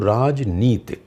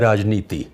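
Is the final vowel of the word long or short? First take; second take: short; long. First: The final vowel is short. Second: The final vowel is long. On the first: The speaker calls it right. "ती रस्व यानी कि छोटी है" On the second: The speaker calls it wrong. "गलत बोला मैं"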